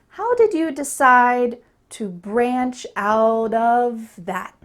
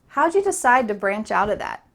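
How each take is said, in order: First: Every word is said fully, without reductions. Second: Words are reduced, linked together and said faster.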